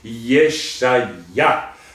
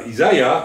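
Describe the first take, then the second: First: The name is pronounced the Hebrew way. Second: The name is pronounced the English way. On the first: The speaker calls it right. "mais c'est Yeshaya" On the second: The speaker calls it wrong. "c'est pas Isaiah en anglais"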